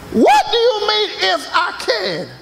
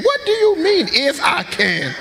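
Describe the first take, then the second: First: Higher, indignant repeat; offended retort. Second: Offended retort. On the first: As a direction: push the insult harder. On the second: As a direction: act offended at the doubt. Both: Acted. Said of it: "They come in, "Would you bake me".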